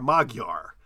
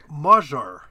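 First: The middle consonant is a hard g sound. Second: The middle consonant is a soft j sound. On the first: The speaker calls it wrong. "I always thought like Magyar" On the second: The speaker calls it right. "it's pronounced like we do a soft J sound"

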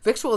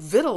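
First: The word is said as spelled, vik-choo-al. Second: The word is said with two syllables, vittle. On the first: The speaker calls it wrong. "victual is absolutely wrong" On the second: The speaker calls it right. "vittle is absolutely correct, in spite of the spelling"

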